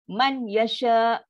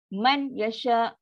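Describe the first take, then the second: Both takes have the same delivery.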